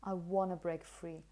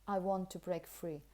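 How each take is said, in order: First: 'Want to' is merged into 'wanna'. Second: The word 'to' is said in a weak form. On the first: "the pronunciation is actually something like wanna" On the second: "In connected speech, unless you wanted to emphasize it, you would probably say"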